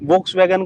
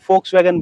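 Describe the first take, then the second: First: The word begins with a V sound. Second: The word begins with an F sound.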